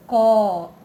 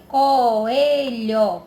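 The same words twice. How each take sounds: First: "Coelho" in separate syllables, loud first CO; split into syllables. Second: "Coelho" loud and drawn out, syllables joined; whole word, stretched. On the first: Teacher separating the vowels for pupils, "Coelho" split up. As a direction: break "Coelho" into co, e, lho with pauses. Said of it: "Se separou". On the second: Teacher showing vowels together in the word, "Coelho" loud and connected. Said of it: "O O e o E juntinho na palavra". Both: Shown as a demonstration.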